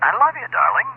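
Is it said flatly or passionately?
passionately. It is said warmly, with passion.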